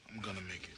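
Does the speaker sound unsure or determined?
unsure. It sounds hesitant and unconvinced.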